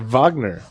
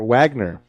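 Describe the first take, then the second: First: The name begins with a V sound. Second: The name begins with a W sound. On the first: "you start off with a V" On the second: "end up with a W"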